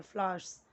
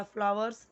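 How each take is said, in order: First: फ्लावर्स as "flaars", no v sound; फ्लावर्स with the v dropped and a long aa; correct pronunciation. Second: फ्लावर्स with a sounded "v", "fla-vars"; wrong-way फ्लावर्स, two full syllables "fla-vars"; mispronunciation demo. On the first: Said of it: "फ्लावर्स नहीं बोलना है". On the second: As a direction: say फ्लावर्स as spelt, with a clear v in the middle. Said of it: "नहीं बोलना है". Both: Shown as a demonstration.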